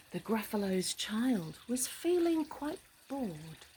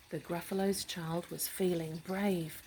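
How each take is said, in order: First: Story narration. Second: Steady rhyming storytelling; story narration. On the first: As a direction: read it like a bedtime rhyme. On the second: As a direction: read it calmly to a child. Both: A narrator's reading.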